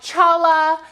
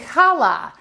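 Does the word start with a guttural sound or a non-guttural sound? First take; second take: non-guttural; guttural. First: The word starts without a guttural h sound. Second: The word starts with a guttural h sound. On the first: The speaker calls it wrong. "it looks like challah" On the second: The speaker calls it right. "it's actually challah, and there's kind of a guttural little h in it"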